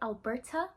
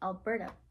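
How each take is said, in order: First: It is said in a South African accent. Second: It is said in a Canadian accent. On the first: "they don't say Alberta" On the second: "they say Alberta"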